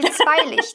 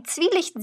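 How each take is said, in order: First: "Zweilicht" with an eye sound in the first syllable; computer's mispronunciation. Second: "Zwielicht" with a long ee in the first syllable; "Zwielicht", first vowel a clean long i; correct pronunciation. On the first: Retold or imitated. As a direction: say "Zweilicht" as zwei plus licht. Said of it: "meine Computerstimme sagt einfach". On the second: Shown as a demonstration. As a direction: say "Zwielicht" as Zwie-, rhyming with wie. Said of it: "sagt sie Zweilicht".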